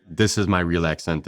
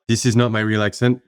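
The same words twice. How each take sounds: First: Rough French-Canadian accent in English; real French-Canadian accent. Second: Coached English accent, slightly lifted; careful, put-on English accent of a French Canadian; learned English accent. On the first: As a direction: let the Quebecois accent come through, a bit rough. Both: Shown as a demonstration.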